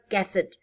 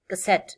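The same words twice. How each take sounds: First: The stress is on the first syllable. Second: The stress is on the second syllable. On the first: The speaker calls it wrong. "not cassette" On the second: The speaker calls it right. "in English this word has stress on the second syllables"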